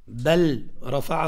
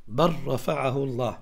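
First: "بل رفعه" with the lam said clearly, bal rafa'ahu; the incorrect "بل رفعه", lam not assimilated; "بل رفعه" as bal rafa'ahu, rising, marked wrong. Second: "بل رفعه الله" said bar-rafa'ahu llah, doubled r; the correct "بل رفعه الله", lam swallowed by the ra; "بل" becomes a doubled r before "رفعه"; lam merged into ra. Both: Shown as a demonstration. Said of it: "غلط".

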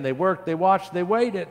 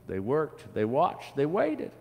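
First: "They worked. They watched. They waited." run together, high and loud; urgent building refrain. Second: "They worked. They watched. They waited." stepping up in pitch, paused between; rising three-step refrain. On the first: Children try again, "They worked. They watched. They waited." high, loud and driving. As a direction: push all three phrases out quickly, raised and louder. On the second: Reader tells of patient children, "They worked. They watched. They waited." climbing with pauses. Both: A narrator's reading.

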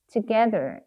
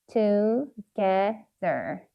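First: Said in the usual way. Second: "together" slowly split as to, ge, ther; syllable by syllable. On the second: Shown as a demonstration. Teacher sounding out "together" for learners, syllable by syllable. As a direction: pause between each syllable of "together". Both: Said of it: "R 사운드 기억하시죠".

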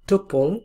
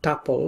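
First: টুপল spoken as "tu-pol", rounded u, falling at the end; tuple as "tupol". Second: টাপল spoken as "ta-pol", like English tuple; tuple as "tapol". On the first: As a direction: say টুপল with a clear "u" in the first syllable, "tu-pol". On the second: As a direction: say টাপল with an open "a" in the first syllable, "ta-pol". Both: Shown as a demonstration. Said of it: "অনেকে টাপল উচ্চারণ করে, অনেকে টুপল উচ্চারণ করে".

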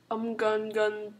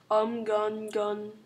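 No difference in how they are said.

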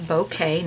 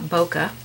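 First: Bokeh said as BOH-kay; correct pronunciation. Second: Bokeh said as BOH-kuh; wrong pronunciation. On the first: Painting teacher telling viewers how bokeh is pronounced, BOH-kay. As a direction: say bokeh with a clear "kay" ending. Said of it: "it is pronounced bokeh". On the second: Painting teacher showing viewers the mistaken bokeh, BOH-kuh. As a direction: end bokeh on a short "kuh". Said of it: "not bokeh". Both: Shown as a demonstration.

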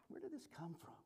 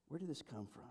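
First: Breathy hushed wondering; bewildered whisper. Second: Quieter, voiced, puzzled; softer voiced repeat. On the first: Retold or imitated. Couple realizing where the fight came from, whispering. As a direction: whisper it in disbelief. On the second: Couple wondering aloud about the fight, softly. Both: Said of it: "they would see that".

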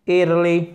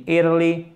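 The two takes are said the same way.

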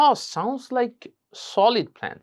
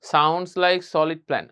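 First: Higher, drawn-out admiring "Oh"; appreciative "oh". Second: Said in the usual way. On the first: Shown as a demonstration. Teacher models praising a friend's plan, higher and appreciative. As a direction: lead in with an impressed "Oh". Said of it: "এই অ সাউন্ডটা যুক্ত করবো". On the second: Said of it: "হবে না".

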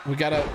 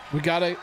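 The two takes are said the same way.

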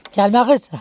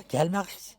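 First: Sharp, louder call to shoo the hen off. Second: Laughing it softly. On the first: Woman shooing her hen away, sharp loud call. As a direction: shout it to keep her away. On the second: Woman laughing at her hen, soft laughing voice. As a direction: say it through a laugh, much quieter. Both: Real, not acted.

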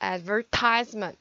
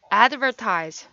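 First: Advertisement slowly with stress on the I syllable. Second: Advertise with the first syllable stressed; stress on the front. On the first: Teacher showing where advertisement is stressed. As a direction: lean on the tai in advertisement. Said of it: "여기서는 여기 I의 강세가 있죠". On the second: Teacher contrasting verb stress with the noun. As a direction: hit the ad in advertise. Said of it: "동사는 앞에 강세가 와요". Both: Shown as a demonstration.

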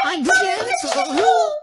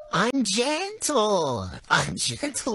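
First: High, slow yell of "I'm gentle"; mock shouting. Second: Soft, slow "I'm gentle". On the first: Girlfriend yells "I'm gentle" to tease her boyfriend, shouting. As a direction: shout that you're gentle, ironically. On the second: Pretend. Girlfriend says "I'm gentle" to her boyfriend, soft and slow. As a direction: stretch out "gentle" calmly and slowly. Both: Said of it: "I'm nice about it".

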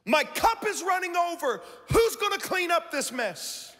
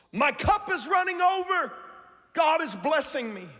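First: The same words, high and put-upon, like a complainer; mock pessimist complaining in a raised voice; grumbling pessimist. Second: Bright, high, delighted voice of an optimist; gushing optimist, pitched up high; cheerful optimist. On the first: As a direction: whine about the mess. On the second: Retold or imitated. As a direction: sound overjoyed that your cup runs over.

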